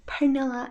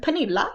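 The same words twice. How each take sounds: First: Pernilla said the English way, per-NIL-uh; English pronunciation. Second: Pernilla said the Swedish way, per-NEE-lah, pitched up; Swedish pronunciation. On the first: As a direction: Pernilla with English vowels and an r-coloured first syllable. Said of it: "sounds so weird to say that in, like, an English accent". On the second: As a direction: Pernilla with a long ee and an open final ah. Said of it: "That would be the Swedish word". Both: Shown as a demonstration.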